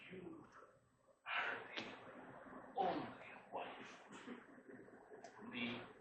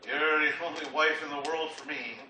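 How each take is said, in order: First: It is said nicely, with warmth. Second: It is said grudgingly, without warmth.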